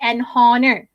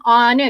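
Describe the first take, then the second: First: Mispronounced "honor", H breathed out after "an"; honor with sounded H. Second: "honor" opened straight on the vowel; honor with silent H. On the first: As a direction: say "an honor" as "an hon-ner". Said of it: "You don't say an honor". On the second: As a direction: say "honor" as "onner". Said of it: "you silentkan H dia". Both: Shown as a demonstration.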